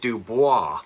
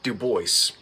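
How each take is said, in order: First: The name is said with a French pronunciation. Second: The name is said with an American pronunciation. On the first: This is the original French way of saying it. "don't pronounce it Dubois" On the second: This is how the local family says it. "They call it Dubois"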